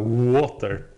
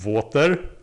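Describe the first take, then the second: First: The word begins with an English W sound. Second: The word begins with a V-like sound. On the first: The speaker calls it right. "instead of water" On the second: The speaker calls it wrong. "the difference between V and W is non-existent ... just like the Germans"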